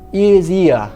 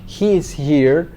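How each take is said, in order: First: The h sounds are dropped. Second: The h sounds are clearly pronounced. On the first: "No meio da Inglaterra, talvez você poderia escutar alguém falando" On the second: "No inglês, o H geralmente tem esse fonema aí de H"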